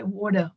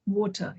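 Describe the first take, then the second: First: Water with a hard r, American style. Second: Water with no r, British style. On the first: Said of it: "But in America they say water". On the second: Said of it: "here we say water". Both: Shown as a demonstration.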